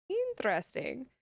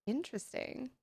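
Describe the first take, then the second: First: Interesting with an upward curious lift at the end; rising interest. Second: Interesting said softly to herself; quiet murmur. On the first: Streamer reacting to a chat fact, rising. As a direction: let Interesting rise with curiosity. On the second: Streamer musing over a chat fact, quietly. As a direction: murmur Interesting under your breath. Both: Real, not acted.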